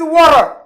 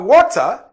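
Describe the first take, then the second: First: It is said with an American accent. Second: It is said without an American accent. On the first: "ils disent water" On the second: "les Américains ne disent pas water"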